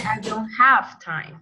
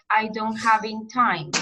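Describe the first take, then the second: First: "have" stressed as the corrected word; teacher's correction, "have" made to stand out. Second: Said in the usual way. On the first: Shown as a demonstration. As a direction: lean on "have" to show the correction. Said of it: "do not get confused". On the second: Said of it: "you're saying things like".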